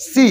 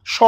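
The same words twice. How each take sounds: First: "সি" as a clear, held "see"; long "সি" sound. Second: "স" as a short "shaw", not "see"; bare "স" sound. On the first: Teacher gives the sound that counts, isolated demonstration. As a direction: answer with "সি" alone, vowel drawn out. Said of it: "কি হবে?". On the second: Teacher shows the sound that does not count, isolated demonstration. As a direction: say "স" alone with an open vowel. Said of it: "দন্তি স এর উচ্চারণ". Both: Shown as a demonstration.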